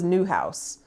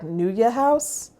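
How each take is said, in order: First: The first word sounds like one syllable, 'new'. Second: The first word sounds like two syllables, 'noo-yuh'. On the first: This is how the speaker always thought it was said. "I always thought it was New House" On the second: This is how someone else was heard saying it. "I heard someone else call it like Nuya House"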